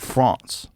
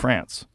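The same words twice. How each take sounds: First: It is said with a French pronunciation. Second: It is said with an American pronunciation. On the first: This is how the other person's people say it. "you guys say France" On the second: This is how the speaker's own people say it. "We say"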